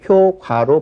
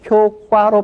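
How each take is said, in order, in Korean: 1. 두 번째 음절은 예사소리로 시작해요. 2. 두 번째 음절은 된소리로 시작해요. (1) "효과로 발음하는 것이 옳은 일이겠죠" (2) "특별히 우리가 효과로 발음할 구조적인 이유가 없습니다"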